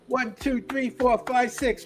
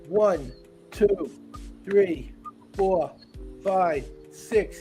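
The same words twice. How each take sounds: First: The count is said as fast as possible. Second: The count is said a little faster.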